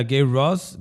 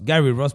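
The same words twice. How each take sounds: First: "Gary" slipped into one syllable, "Gay"; mispronounced name. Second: Said in the usual way. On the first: Real, not acted. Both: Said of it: "perdón".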